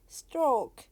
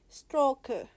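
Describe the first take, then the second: First: The word ends on the consonant. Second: The word ends with an added vowel. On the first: "if I say stroke" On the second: "Korean would say stroker"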